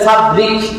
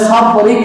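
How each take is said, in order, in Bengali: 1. মাঝের বর্ণটি একটি সাধারণ d ধ্বনি। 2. মাঝের বর্ণটি একটি এমফেটিক আরবি ধ্বনি। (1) "বাংলা যদি পড়েন পড়বেন ফাবরিক দান দিয়ে" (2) "অথচ শব্দটা হচ্ছে ফাবরিক"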